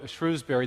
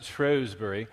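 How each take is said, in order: First: It is said the American way. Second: It is said the British way.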